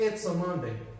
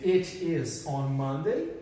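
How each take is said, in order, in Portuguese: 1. It is é reduzido a uma única sílaba. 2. It is é dito como duas palavras completas.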